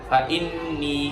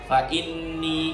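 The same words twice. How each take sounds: The two takes are said the same way.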